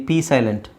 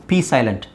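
No difference in how they are said.

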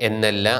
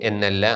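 The two takes are said the same way.

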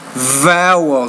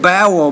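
First: The first sound is pronounced like a V. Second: The first sound is pronounced like a B. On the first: The speaker calls it right. "but it's vowel" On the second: The speaker calls it wrong. "You said bowel"

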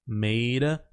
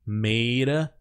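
No difference in how they are said.

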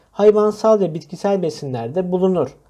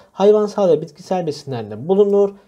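The two takes are said the same way.

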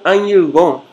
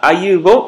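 First: The middle consonant is a nasal ny sound. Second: The middle consonant is a plain y glide. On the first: "ele é realizado como um Nhe" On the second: "ao invés de ser lido como um I semivogal"

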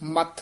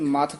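First: The consonant is said tightly and pressed. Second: The consonant is said softly and lightly. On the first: It refers to the forehead. The speaker calls it right. "ਮੱਥ ਵੀ ਕੱਸ ਕੇ ਹੀ ਉਚਾਰਨ ਕਰਨਾ ਹੈ" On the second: It refers to churning. The speaker calls it wrong. "ਜੇ ਮੱਥ ਕਹਿ ਦਾਂਗੇ ਤਾਂ ਉਹਦਾ ਅਰਥ ਜੂਗਾ ਰਿੜਕਣਾ"

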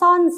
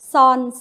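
First: The syllable is said on a falling tone. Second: The syllable is said on a level mid tone. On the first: "โท" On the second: "เสียงสามัญ"

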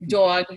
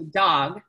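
First: The vowel follows a Northeastern US accent. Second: The vowel follows a general American accent.

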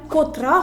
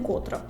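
First: The stress is on the second syllable. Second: The stress is on the first syllable. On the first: The speaker calls it right. "правильно поставити питання котра година" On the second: The speaker calls it wrong. "а не котра"

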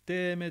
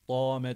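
First: The vowel sounds like a clear e. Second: The vowel sounds like a clear a. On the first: "Deme de değil" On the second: "dame de değil"

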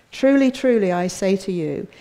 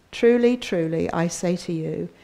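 The two takes are said the same way.

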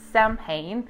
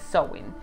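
First: The word is read letter for letter. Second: The word is said differently from its spelling. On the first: The speaker calls it wrong. "The spelling is Samhain" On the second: The speaker calls it right. "but the pronunciation is Samhain"

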